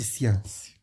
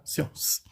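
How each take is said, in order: First: "science" as "si-ãs"; wrong pronunciation. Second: "Science" as "si-õs"; "Science" keeping the "on" sound before final s; correct pronunciation. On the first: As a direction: say "science" with a nasal "an" vowel. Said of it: "Não é de science". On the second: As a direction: say "Science" with a nasal "on" vowel. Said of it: "vai continuar com o som de on". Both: Shown as a demonstration.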